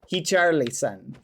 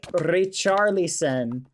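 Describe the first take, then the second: First: The name is said with Portuguese sounds. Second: The name is said with English sounds. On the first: The speaker calls it right. "It's like that" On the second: The speaker calls it wrong. "is not pronounced like that in Portuguese"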